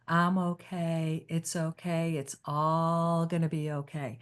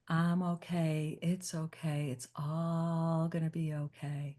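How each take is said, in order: First: It is said in a soft lullaby voice. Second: The same.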